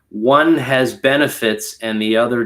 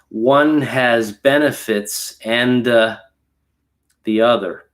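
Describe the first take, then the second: First: 'And' links straight into 'the' without a vowel. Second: An extra vowel sound follows 'and'. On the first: The speaker calls it right. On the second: The speaker calls it wrong.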